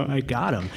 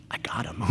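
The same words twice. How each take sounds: First: Said aloud through a laugh; a little win, laughing as he says it; laughing triumph. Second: Voiceless whisper to himself; gleeful whisper. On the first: Telling the audience how he hooked Emmanuel, laughing. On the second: Spotting Emmanuel at the fair, a whispered private thrill. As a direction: breathe it out like a secret triumph. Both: Retold or imitated.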